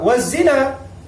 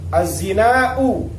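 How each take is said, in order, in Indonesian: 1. Vokal akhirnya pendek, tanpa hamzah. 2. Vokal akhirnya panjang, diakhiri dengan hamzah (glottal stop). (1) "Kalau dibaca waz-zina itu lughah Hijaziyah" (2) "dibaca panjang ada alif"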